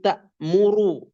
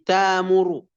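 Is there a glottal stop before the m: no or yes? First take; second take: yes; no. First: A glottal stop is heard before the m. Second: A long vowel replaces the glottal stop.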